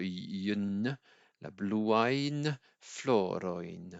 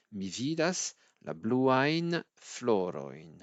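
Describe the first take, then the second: First: Bluain floroin drawn out, yen endings clearly sounded; slow right down on la bluain floroin; teacher isolating the difficult yen sound; very slow demo. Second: Bluain floroin stretched with a clear yen sound; teacher showing the tricky yen sound; slow demo. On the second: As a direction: carefully model Mi vidas la bluain floroin. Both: Shown as a demonstration. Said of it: "un son qui est un petit peu difficile".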